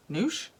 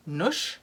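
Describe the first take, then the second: First: "noosh" with the long oo of moon; long-vowel "noosh". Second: "noosh" with the short oo of push; short-vowel "noosh". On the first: Trying out a brand name for viewers, "noosh" with a long vowel. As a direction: draw "noosh" out with a long oo, questioning rise. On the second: Trying out a brand name for viewers, "noosh" with a short vowel. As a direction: say "noosh" to rhyme with push, questioning rise. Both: Shown as a demonstration. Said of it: "Would you say noosh or noosh".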